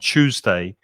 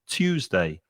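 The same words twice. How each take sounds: First: The word begins with a ch sound. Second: The word begins with a plain t sound. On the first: "the same as Monica with a ch sound" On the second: "with a hard t sound"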